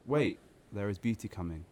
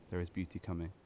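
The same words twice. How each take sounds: First: Said in the usual way. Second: A much softer echo of the line; soft, hushed repeat; quiet echo. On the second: Acted. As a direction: let it fade like an afterthought.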